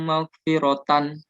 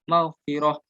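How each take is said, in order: First: The word ends with a -tan sound. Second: The word ends with an h sound. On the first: The reciter keeps reading without stopping. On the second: The reciter stops at the end of the verse. "mengubah tak marbuto menjadi ha"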